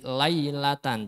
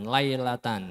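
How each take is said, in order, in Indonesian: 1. Vokal pertama adalah luncuran 'ai' terbuka penuh. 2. Vokal pertama condong datar ke arah 'ei'. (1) "Jadi lailatan" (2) "jangan lailatan"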